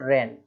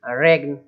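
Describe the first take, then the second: First: No g sound is pronounced before the n. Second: A g sound is pronounced before the n. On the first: The speaker calls it right. "केवल रेन" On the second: The speaker calls it wrong. "ऐसा नहीं बोलना"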